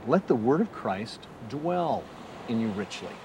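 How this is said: The word dwell carries the main stress. The word should stay, not just visit briefly. "Or I might read it this way, ... Dwelling as opposed to just stopping by for a quick visit"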